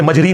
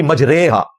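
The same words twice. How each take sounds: First: मजरी ending in "ree"; rejected long-ee reading. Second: मजरेहा with a drawn-out "ray" in the middle; majhool vowel. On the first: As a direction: say मजरी with an "ee" vowel as the reading to avoid. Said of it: "उसे मजरी नहीं पढ़ना". (मजरी, "री" की आवाज़ के साथ) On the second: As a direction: recite मजरेहा slowly, "ray" rather than "ree". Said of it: "जो उस स्टाइल में पढ़ा जाता है". (मजरेहा, खिंचे मजहूल "रे" के साथ) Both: Shown as a demonstration.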